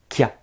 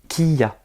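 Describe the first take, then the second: First: It is said as one merged syllable. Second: It is said as two separate syllables. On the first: The two characters are combined into one sound. "ce sera un seul son" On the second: Two separate characters are side by side. "Là, ce n'est pas combiné. Là, quand je vais prononcer, je vais dire qui, ya, qui ya"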